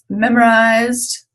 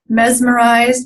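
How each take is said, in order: First: A consonant in the first syllable is dropped. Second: Every sound of the word is pronounced.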